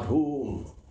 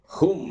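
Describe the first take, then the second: First: The vowel is long, as in 'whom'. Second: The vowel is short, as in 'hum'. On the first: The speaker calls it wrong. "not whom" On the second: The speaker calls it right. "Hum it is"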